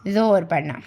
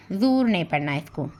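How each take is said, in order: First: "जोर" said as "zor" with a clear o; right reading shown. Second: "जोर" said as "zur" with a short oo; wrong reading shown. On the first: Teacher showing pupils the right reading of "जोर", "zor". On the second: Teacher warning pupils how not to read "जोर", as "zur". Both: Shown as a demonstration.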